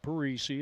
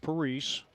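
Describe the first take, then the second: First: The name ends with an extra 'ee' syllable. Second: The name ends without an extra 'ee' syllable. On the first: The speaker calls it wrong. "Not Parisi" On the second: The speaker calls it right. "it's Parise"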